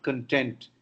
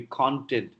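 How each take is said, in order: First: "content" as con-TENT, second syllable stressed; wrong stress. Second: "content" as CON-tent, first syllable stressed; full first vowel in "content", lighter ending; correct noun stress. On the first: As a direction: show the error: weak first syllable in "content". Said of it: "No, it's not content". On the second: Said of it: "It should be content". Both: Shown as a demonstration.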